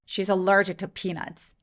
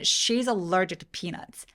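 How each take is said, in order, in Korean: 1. 강세는 peanuts에 있어요. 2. 강세는 she에 있어요. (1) "피너츠의 P 부분에다가 강세를 줘볼게요" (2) "만약에 문맥에서 she가 되게 중요하다"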